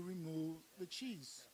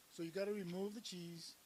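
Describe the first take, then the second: First: "remove the cheese" said slowly, each word weighted; slow firm stress. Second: Said in the usual way. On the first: Acted.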